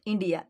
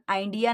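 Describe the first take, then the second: First: The first vowel sounds like 'ee'. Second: The first vowel sounds like 'eye'. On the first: The speaker calls it right. "आपण आयचा उच्चार ई देखील करणार आहोत" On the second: The speaker calls it wrong. "त्याला आपण आयडिया नाही म्हणणार"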